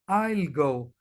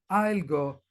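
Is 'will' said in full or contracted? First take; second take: contracted; contracted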